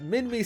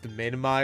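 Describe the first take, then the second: First: The word sounds close to Minnie. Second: The word does not sound like Minnie. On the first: This is a personal pronunciation that suits a small, cute animal. "Minmi sounds closer to Minnie" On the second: This is the usual pronunciation of the name. "I know his name is pronounced Minmi or whatever"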